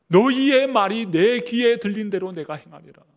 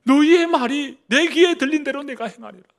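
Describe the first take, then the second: First: Loud, solemn divine pronouncement; booming voice of God. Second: Much higher and louder, ringing proclamation; thundering voice of God. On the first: Preacher voicing God to grumbling Israel, loud and solemn. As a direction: proclaim it as God's judgment. God's words quoted in sermon. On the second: Preacher repeating God's warning to the people, thundering. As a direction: cry it out like a divine verdict. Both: Acted.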